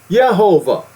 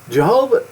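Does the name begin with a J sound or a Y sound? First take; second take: Y sound; J sound. First: The name begins with a Y sound. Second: The name begins with a J sound. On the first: The speaker calls it right. "It's Yehovah" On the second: The speaker calls it wrong. "His name is not Jehovah"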